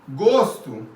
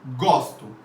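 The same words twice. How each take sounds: First: The first vowel is a closed O. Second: The first vowel is an open O. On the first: It means taste. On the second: It means I like.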